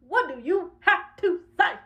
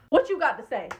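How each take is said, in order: First: Slow, high, word by word; deliberate spaced-out challenge; confrontational challenge. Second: Said in the usual way. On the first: Acted. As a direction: separate every word as a dare. Challenge repeated with slow emphasis.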